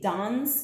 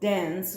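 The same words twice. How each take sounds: First: The vowel is an open 'ah' sound. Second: The vowel is the American 'a' as in 'air'. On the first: "they say dance" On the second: "which is what Americans say"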